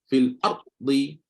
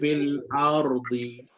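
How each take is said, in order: First: The r is held and cut off without flowing. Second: The r is released slightly with a vibration. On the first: The speaker calls it wrong. "Boleh ke? Sedap ke baca tu?" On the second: The speaker calls it right. "Lepaskan sikit, lepaskan sikit. Barulah bunyi ra tu ada getaran dia"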